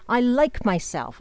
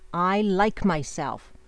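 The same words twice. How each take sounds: First: The phrase is spoken loudly. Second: The phrase is spoken at normal volume. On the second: "Say it again"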